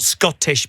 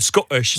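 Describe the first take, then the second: First: The T sounds are clearly pronounced in the word. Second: The T sounds are dropped from the word. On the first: "not Scottish" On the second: "but you said Scottish"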